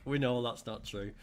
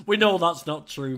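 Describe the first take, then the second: First: Said in the usual way. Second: Loud and emphatic, pitched up. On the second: Real, not acted. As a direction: call it out with a cheer. Teasing reply to a viewer comment.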